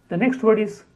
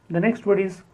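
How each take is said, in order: The two takes are said the same way.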